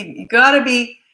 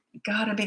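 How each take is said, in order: First: Gotta pushed out louder and higher; stress on gotta. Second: Said in the usual way. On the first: Real, not acted. Coach urges parents to be confident, punching gotta. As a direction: lean hard on gotta.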